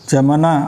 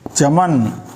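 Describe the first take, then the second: First: The word ends with an added vowel after n. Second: The word ends on the consonant n. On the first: The speaker calls it wrong. "ऐसे नहीं" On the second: The speaker calls it right. "उसका उच्चारण आधा होगा"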